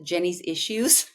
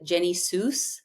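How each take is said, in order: First: The name ends with the word issues. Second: The name ends with the word Seuss. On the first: "Which it's not Jenny's Issues" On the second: "my brother calls it Jenny Seuss"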